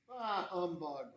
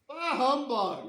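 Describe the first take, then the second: First: It is said at a normal, quiet volume. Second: It is said loudly, almost yelled.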